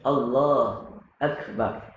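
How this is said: There is a pause and a breath between the words.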